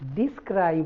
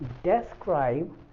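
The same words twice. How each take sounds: First: The first vowel sounds like 'ee'. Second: The first vowel sounds like 'ay'. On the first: The speaker calls it wrong. "डिस्क्राइब नहीं" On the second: The speaker calls it right. "ई के लिए मैंने ए sound बताया था"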